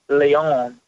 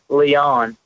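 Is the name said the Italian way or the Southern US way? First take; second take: Italian; Southern. First: The name is said with an Italian pronunciation. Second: The name is said with a Southern US pronunciation. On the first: "if you eat a lot of Italian or spaghetti and pizza, I think you have to pronounce it Leon" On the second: "if you're from backwoods Tennessee or Georgia, you say Leon"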